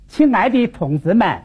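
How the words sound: It is said in Wuhan dialect with sliding-down tones. "换我们武汉方言 它往下滑"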